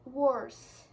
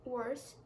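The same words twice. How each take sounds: First: Emphatic worse. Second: Said in the usual way. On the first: Shown as a demonstration.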